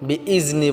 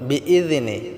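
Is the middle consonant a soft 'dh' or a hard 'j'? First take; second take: hard j; soft dh. First: The middle consonant is a hard j-like sound. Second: The middle consonant is a thin, soft dh sound. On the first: The speaker calls it wrong. "বিইজনি বললে হবে না" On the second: The speaker calls it right. "জালটাকে পাতলা করতে হবে"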